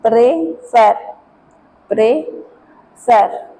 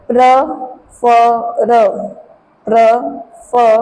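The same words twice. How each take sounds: First: Prefer with the second syllable like fair; actual French pronunciation. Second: Prefer said the French way, stress on the end; prefer, French style; French pronunciation demo. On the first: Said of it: "But in actual practice". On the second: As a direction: model prefer as a French word. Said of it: "Another example". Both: Shown as a demonstration.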